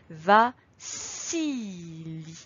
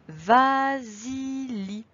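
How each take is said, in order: First: The middle consonant is an s sound. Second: The middle consonant is a z sound. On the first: The name is spelled with two S. The speaker calls it right. "il faut mettre absolument deux S pour qu'ici, on entende le son S" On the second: The name is spelled with a single S. The speaker calls it wrong. "si je mets qu'un seul S, je vais lire"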